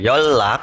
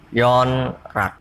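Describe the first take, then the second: First: The first syllable ends in an l sound. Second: The first syllable ends in an n sound. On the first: The speaker calls it right. "dibaca yolak" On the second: The speaker calls it wrong. "bukan yonrak"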